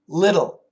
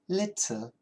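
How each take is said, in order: First: The middle T is flapped, like a D. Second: The middle T is a clear T sound. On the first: "Americans use a flat T... usually we say little" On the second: "the British people love to keep that T sound"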